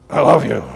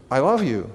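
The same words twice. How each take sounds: First: Louder, forceful delivery without tenderness; untender, punched-out declaration; harsh tone. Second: A soft, tender declaration; tenderly, quietly sincere. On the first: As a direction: say it hard, with no tenderness. Contrasting demo of tone of voice. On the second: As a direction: say it gently, with tenderness. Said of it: "say it with tenderness". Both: Shown as a demonstration.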